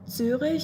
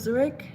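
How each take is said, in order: First: It is said with a German pronunciation. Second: It is said with an American pronunciation.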